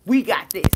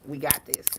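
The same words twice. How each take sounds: First: Loud We got this. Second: A soft private We got this, said to yourself; soft, low we got this. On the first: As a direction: call it out like a rallying cry. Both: Shown as a demonstration.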